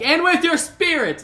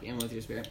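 First: The phrase is shouted out loudly. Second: The phrase is muttered quietly under the breath. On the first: The response is made openly for everyone to hear. "I didn't yell it out. I was like" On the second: The response is made privately to oneself. "I just like under my breath"

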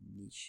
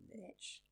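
First: Niche is said in a non-American accent. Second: Niche is said in an American accent.

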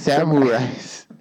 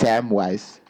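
First: An R sound creeps into the second syllable. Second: The second syllable has no R sound. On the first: The speaker calls it wrong. "you are saying Samwise" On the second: The speaker calls it right. "It's Samwise"

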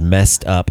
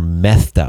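First: The s sound is a plain hissing s. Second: The s sound is lisped like th.

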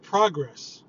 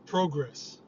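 First: The word is said in a usual accent. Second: The word is said in a Canadian accent.

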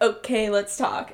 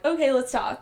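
First: It is said with a strong country twang. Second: It is said plainly, without a country twang. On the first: The speaker calls it right. "in the original, she's like" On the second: The speaker calls it wrong. "she didn't really keep the twang"

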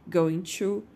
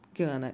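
First: The two words are said separately and fully. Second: The two words are run together and reduced. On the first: "Essa junção going to" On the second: "junto, dá esse som gana"

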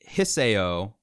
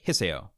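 First: The name is said slowly, syllable by syllable. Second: The name is said quickly, syllables run together.

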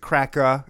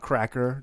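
First: The final R sound is dropped. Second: The final R sound is strongly pronounced. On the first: The speaker calls it right. "it is cracker" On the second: The speaker calls it wrong. "it's not cracker, don't give me a hard R on that either"

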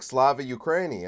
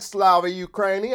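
First: It is said in a plain regular voice. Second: It is said in a southern American accent. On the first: A conservative is saying it. "When you're imitating a conservative, you just give them a regular voice" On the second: A liberal is saying it. "give them a southern accent"

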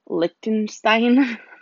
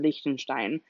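First: The name is pronounced the English way. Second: The name is pronounced the German way. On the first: "force out the English version" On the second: "which is the German version"

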